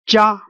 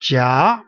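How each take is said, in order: First: The pitch stays level throughout. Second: The pitch rises throughout. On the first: "the sound is very flat all the way from the beginning to the end" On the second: "going upward as you as you read this word... all the way up"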